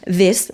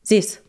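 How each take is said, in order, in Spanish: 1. La palabra empieza con un sonido th. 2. La palabra empieza con un sonido s.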